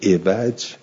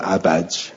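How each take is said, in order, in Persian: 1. اولین مصوت صدای 'i' است. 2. اولین مصوت صدای 'a' است. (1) "عوج به کسر این، فدین و کل مالا یورا" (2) "عوجه به فتح این فل عوده و کل ما یورا"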